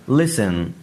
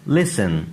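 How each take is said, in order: Both takes have the same delivery.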